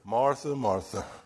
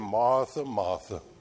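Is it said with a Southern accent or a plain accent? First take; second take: plain; Southern. First: It is said in a plain reading voice. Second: It is said with a Southern American accent.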